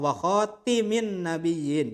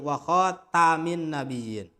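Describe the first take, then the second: First: The vowel after the t is 'i'. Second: The vowel after the t is 'a'. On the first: "bisa juga dibaca kasroh" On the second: "Bisa dibacanya bi fathit ta'i"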